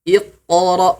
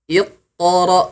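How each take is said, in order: The two takes are said the same way.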